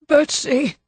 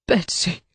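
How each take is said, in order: First: High despairing cry of a name; husband crying out on seeing his dead wife. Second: "Betsy," said softly in a falling, broken voice; "Betsy," breathed in quiet anguish, falling away; "Betsy," murmured in a broken voice over her body. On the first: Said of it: "The despairing cry". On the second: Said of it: "His anguished voice broke". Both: A narrator's reading.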